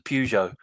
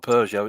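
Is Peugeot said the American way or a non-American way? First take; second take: American; non-American. First: Peugeot is said the way Americans say it. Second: Peugeot is said the usual non-American way. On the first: The speaker calls it right. "because that's how they pronounce it" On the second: The speaker calls it wrong. "it's not a Peugeot"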